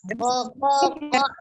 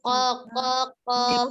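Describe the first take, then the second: First: The last syllable drops lower than the others. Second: All three syllables are said at one level. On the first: The speaker calls it wrong. "yang ketiga berbeda Umi bacanya" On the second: The speaker calls it right. "Harus sama ya"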